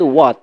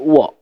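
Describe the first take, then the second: First: It is said in an American accent. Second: It is said in a British accent.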